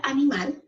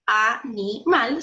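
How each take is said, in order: First: Said in the usual way. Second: 'animal' slowly split as a-ni-mal; syllable by syllable. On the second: Shown as a demonstration. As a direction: break 'animal' into three separate syllables, slowly. ('animal' dicho lento, separado en sílabas) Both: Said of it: "la separamos en sílabas".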